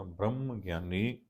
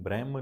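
First: ਬ੍ਰਹਮ with a long, held m before ਗਿਆਨੀ; doubled m. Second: ਬ੍ਰਹਮ said quickly with a single short m; short m, mistaken. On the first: Teacher correcting the reading, ਬ੍ਰਹਮ with long m. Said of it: "ਇਹਨੂੰ ਬ੍ਰਹਮ ਨਹੀਂ ਪੜ੍ਹਨਾ". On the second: Teacher showing the wrong reading, ਬ੍ਰਹਮ undoubled. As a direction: pass over the m of ਬ੍ਰਹਮ without holding it. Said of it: "ਨਹੀਂ ਪੜ੍ਹਨਾ". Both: Shown as a demonstration.

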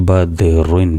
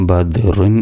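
No difference in how they are said.

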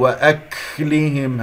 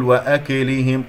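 First: وأكلهم with a long puff of breath on the ك; exaggerated hams. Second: وأكلهم with an echo vowel after the ك; bounced kaf. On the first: Teacher showing the second error, exaggerated hams. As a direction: overdo the breathy release of ك in وأكلهم. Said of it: "أبالغ الهمس". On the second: Teacher showing the first error, bounced kaf. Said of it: "وأكلهم قلقلة". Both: Shown as a demonstration.

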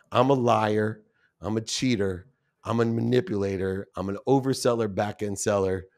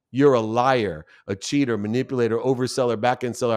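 First: Owning each label softly and heavily; a touch softer, mild remorse; quiet confession. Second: Listing the insults plainly, with a firm edge; lightly voiced anger, mostly plain; retold accusation. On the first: Retold or imitated. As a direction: confess each flaw to yourself. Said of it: "I still get choked up today". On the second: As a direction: throw each label at him in turn. Angry accusation of the father.

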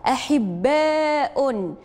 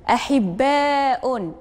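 First: Very slow, stretched syllables; أحباء read very slowly, every syllable held; drawn-out model word. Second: Very slow repeat; أحباء said slowly with the long vowel held; drawn-out model word. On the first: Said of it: "انتقلوا الكلمة الموالية". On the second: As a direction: stretch أحباء again syllable by syllable. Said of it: "واش هاد الكلمة تتضمن حرف المد". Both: Shown as a demonstration.

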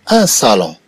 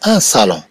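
Both takes have the same delivery.

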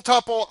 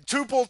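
First: "tuple" said TUP-pull, raised and loud; higher-pitched TUP-pull for "tuple"; short-U tuple. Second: "tuple" said TOO-pull, raised and loud; higher-pitched TOO-pull for "tuple"; long-U tuple. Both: Shown as a demonstration. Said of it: "I don't care how you say it".

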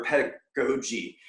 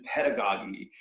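First: Pedagogy with a long "go" in the third syllable; alternative pronunciation. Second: Pedagogy with a short "gah" in the third syllable; first pronunciation variant. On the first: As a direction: say pedagogy as ped-a-GO-jee, breaking before GO. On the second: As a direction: say pedagogy as PED-a-gah-jee. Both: Shown as a demonstration. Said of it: "however it's pronounced".

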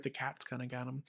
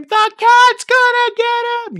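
First: Said in the usual way. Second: A much higher, louder excited scream, a bit slower; kid screams. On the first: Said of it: "You're right". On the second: Retold or imitated. An excited student screams the answer at the teacher, high and loud. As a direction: shout it like a thrilled kid who knows the answer. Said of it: "someone will scream".

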